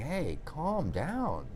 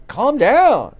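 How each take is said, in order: First: Much softer, slow "Hey, calm down"; gentle calm down. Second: A louder, punchy "Calm down"; sharp calm down. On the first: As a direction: ease it out slow and soft, like talking someone down. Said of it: "somebody saying". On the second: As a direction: snap "Calm down" out like a stranger cutting you off. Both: Retold or imitated.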